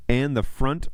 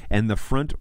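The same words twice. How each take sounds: The two takes are said the same way.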